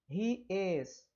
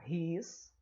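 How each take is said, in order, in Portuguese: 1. Duas palavras separadas são ditas por completo. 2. As palavras são encurtadas em uma só sílaba.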